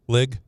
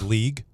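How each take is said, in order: First: The word has a short 'i' vowel. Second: The word has a long 'ee' vowel.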